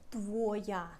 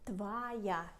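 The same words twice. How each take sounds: First: The first vowel sounds like a full O. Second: The first vowel sounds like A. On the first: The speaker calls it wrong. "We say not твоя" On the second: The speaker calls it right. "but твоя, because O is not stressed"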